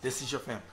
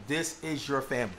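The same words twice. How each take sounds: First: "your" stressed, falling to the end; "your" is the word that carries it. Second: "This" stressed, falling to the end; "This" is the word that carries it. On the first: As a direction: hit "your" and let the line fall. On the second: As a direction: lean hard on "This" and let the line fall. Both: Shown as a demonstration. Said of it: "This verse is establishing that for you".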